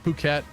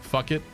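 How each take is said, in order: First: It is said like 'poo-ket'. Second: It is said like 'fuck it'. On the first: The speaker calls it right. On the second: The speaker calls it wrong.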